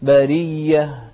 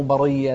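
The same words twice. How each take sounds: First: برية louder, with a thin r into long "ee"; correct light ra. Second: برية with a thickened r, "ba-ray-ya"; faulty heavy r in برية; wrong heavy ra. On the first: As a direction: keep the r in برية light, "ba-ree-yah". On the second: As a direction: darken the r in برية. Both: Shown as a demonstration. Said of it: "مو برية".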